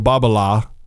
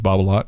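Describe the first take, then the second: First: The final t is silent. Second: The final t is sounded. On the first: The speaker calls it right. "that's correct pronunciation" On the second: The speaker calls it wrong. "even though everybody says Babalat"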